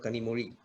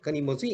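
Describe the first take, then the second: First: The middle consonant is a soft r-like sound. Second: The middle consonant is a clear z sound.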